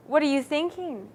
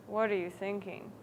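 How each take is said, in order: First: Lightly questioning, a little lifted; inquiring. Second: Low, soft mumble; mumbled. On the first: Teacher demonstrates Sam's line to students, inquiring. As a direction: ask it with mild inquiry. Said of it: "inquired Sam". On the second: Teacher demonstrates Sam's line to students, mumbling. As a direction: mumble it quietly, pitched down. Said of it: "you know, mumbled Sam". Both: Shown as a demonstration.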